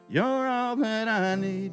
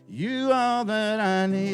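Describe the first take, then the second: First: The phrase begins with 'you're'. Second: The phrase begins with 'you' only. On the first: The speaker calls it right. "instead of saying" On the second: The speaker calls it wrong. "He said"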